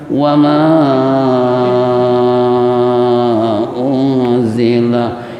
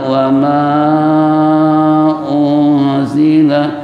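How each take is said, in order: First: The long vowel is held for five beats. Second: The long vowel is held for four beats. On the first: "dua setengah alif" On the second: "dua alif, empat harakat"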